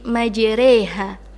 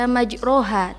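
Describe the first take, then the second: First: The vowel after r leans toward e. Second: The vowel after r is an open a. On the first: This is the imalah reading used in this verse. "kita ubah menjadi majreha" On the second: This is the ordinary reading without imalah. "Aslinya itu dibaca majroha"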